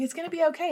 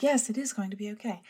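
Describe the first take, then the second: First: High-pitched, comforting imitation; joyful reassurance. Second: Mildly acted, comforted agreement; convinced agreement. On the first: Imitating her co-host comforting her, joyful and reassuring. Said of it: "you always say it with such joy". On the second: Herself answering her comforting co-host, mildly acted conviction. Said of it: "And I'm like".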